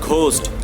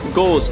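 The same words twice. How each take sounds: First: An audible h is sounded after the g. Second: The h is silent after the g. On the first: The speaker calls it wrong. "not ghost" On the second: The speaker calls it right. "See the silent H?"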